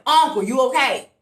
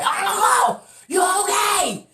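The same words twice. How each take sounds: First: Raised, higher worried call; retold yell. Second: High, drawn-out holler; retold scream. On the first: Yelling at Uncle stuck up on the landing, raised voice. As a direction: call out as if to someone across the landing. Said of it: "So I'm yelling at him". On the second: Screaming to unanswering Uncle in the breezeway, high shout. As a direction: scream it out down a hallway. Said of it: "now I'm screaming in the breezeway".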